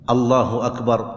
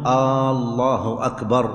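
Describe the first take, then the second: First: The opening vowel of Allah is short. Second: The opening vowel of Allah is drawn out long. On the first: The speaker calls it right. "لا بد أن يأتي بها الإنسان بهذا اللفظ الله أكبر" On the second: The speaker calls it wrong. "أن لا يمد الهمزة في لفظ الجلالة، فلا يصح أن يقول"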